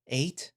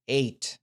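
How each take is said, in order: First: Eight? rising in shocked disbelief; disbelieving question. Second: Eight. said flat and final with a falling tune; grim confirmation. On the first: Narrator hearing the carcass count, a stunned rising question. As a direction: ask Eight? back, stunned, pitch going up. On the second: The stern man confirming the carcass count, flat and grim. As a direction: confirm Eight. firmly, no doubt left. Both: Acted.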